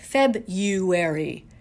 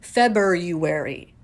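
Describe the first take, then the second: First: The first r is dropped after the b. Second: The first r is sounded after the b. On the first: The speaker calls it wrong. "as if that little R isn't there" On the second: The speaker calls it right. "There's that little extra R in there"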